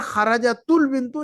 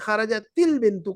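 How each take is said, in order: First: The joining vowel after kharajat is 'u'. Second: The joining vowel after kharajat is 'i'. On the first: The speaker calls it wrong. "खरजतुल बिंतु नहीं कहेंगे" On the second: The speaker calls it right. "सुकून को दम्मा में नहीं बल्कि कसरा में बदल रहे हैं"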